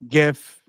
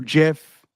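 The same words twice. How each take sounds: First: "gif" with a hard g, as in "gift". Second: "gif" with a soft g, like "jif". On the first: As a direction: say "gif" starting with the g of "go". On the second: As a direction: say "gif" starting with a j sound. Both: Shown as a demonstration. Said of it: "depending on where you are politically on that".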